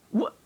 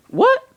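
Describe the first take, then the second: First: Said in the usual way. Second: Loud, high disbelieving what; shocked. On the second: Real, not acted. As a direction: blurt it out in pure shock. Shocked by a strange sneeze.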